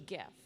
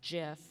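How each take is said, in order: First: It begins with a hard G sound. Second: It begins with a soft J-like G sound. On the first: The speaker calls it right. "Like hard G" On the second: The speaker calls it wrong. "pronounced with a soft G, so it's like Jif"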